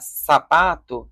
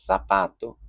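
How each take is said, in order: First: The first sound is a plain hissing s. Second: The first sound is a lisped th. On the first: "em vez de falar sapato" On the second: "essa peculiaridade do som, que alguns espanhóis ... vão fazer da letra Z"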